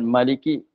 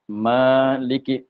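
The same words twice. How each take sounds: First: The first vowel is short. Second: The first vowel is held long. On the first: This is the reading of a different recitation tradition. "Bukan maliki. Itu qiraah lain" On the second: This is the reading of the recitation being taught. "pada bacaannya mim alif lam kaf"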